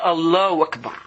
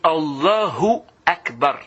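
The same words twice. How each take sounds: First: The 'hu' syllable of 'Allahu' is left out. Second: The 'hu' syllable of 'Allahu' is clearly said. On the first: The speaker calls it wrong. "C'est pas Allahu Akbar. / il enlève le hu là" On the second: The speaker calls it right. "C'est Allahu Akbar"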